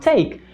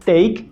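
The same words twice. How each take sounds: First: The T is said with a puff of air. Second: The T is said without a puff of air. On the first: The speaker calls it right. "começa a falar take" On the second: The speaker calls it wrong. "parar de falar take"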